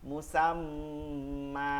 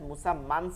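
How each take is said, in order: First: The word ends with a lengthened vowel. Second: The word ends with an n sound. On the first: This is the form when stopping at the end of the verse. "কি হবে?" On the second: This is the form when reading on without stopping. "মুসাম্মান ছিল"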